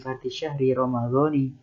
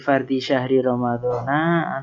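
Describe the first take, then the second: First: The last word ends in an 'i' vowel. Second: The last word ends in an 'a' vowel.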